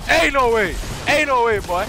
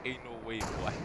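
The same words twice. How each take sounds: First: High, shouted protest; real shout at the game; loud disbelief. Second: Much softer, resigned delivery; quiet disbelief. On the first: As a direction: yell it twice in outraged disbelief. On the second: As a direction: say it softly to yourself. Same words after "never mind. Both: Real, not acted.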